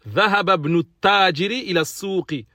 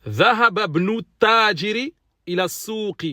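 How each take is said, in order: No difference in how they are said.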